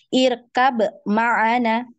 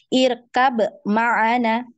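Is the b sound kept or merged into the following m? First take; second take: kept; kept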